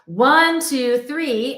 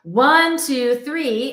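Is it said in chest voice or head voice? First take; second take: chest voice; chest voice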